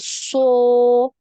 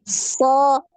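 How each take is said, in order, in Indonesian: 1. Bibir didorong ke depan dan membulat. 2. Bibir diam, tidak membulat. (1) "jangan dimonyongkan bibirnya" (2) "Bibir kita ini enggak gerak ya"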